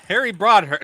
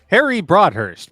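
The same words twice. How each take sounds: First: It is said in a normal speaking voice. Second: It is said in a put-on announcer voice.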